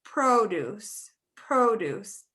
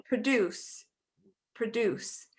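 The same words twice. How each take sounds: First: "produce" as PRO-duce, long opening O; first-syllable stress. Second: "produce" as pruh-DUCE, reduced first syllable; second-syllable stress. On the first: Teacher contrasts word meanings, "produce" as PRO-duce. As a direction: hit the PRO in "produce", like the noun. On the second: Teacher contrasts word meanings, "produce" as pruh-DUCE. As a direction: put the weight on DUCE in "produce". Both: Shown as a demonstration. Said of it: "Same thing here at the bottom".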